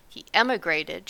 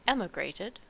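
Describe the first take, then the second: First: Emigrated pressed hard and louder; stress on emigrated. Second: Said in the usual way. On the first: A narrator's reading. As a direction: lean on the word emigrated. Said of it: "stressing the word". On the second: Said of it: "corrected Homily".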